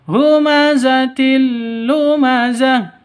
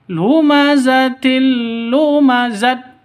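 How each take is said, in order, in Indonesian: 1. Kata terakhir berakhir dengan bunyi h. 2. Kata terakhir berakhir dengan bunyi t. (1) "Yang betul humazatil lumazah, berubah menjadi he" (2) "Jangan dibaca lumazatil lumazat, salah"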